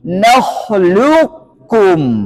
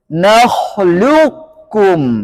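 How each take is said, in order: Both takes have the same delivery.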